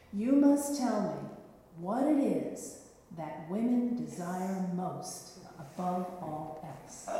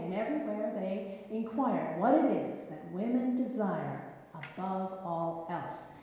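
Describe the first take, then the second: First: Slow, weighty knight's riddle. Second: Said in the usual way. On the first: Acted. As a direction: lay out the riddle slowly, with menace. Knight poses his riddle. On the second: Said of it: "narration repeats riddle".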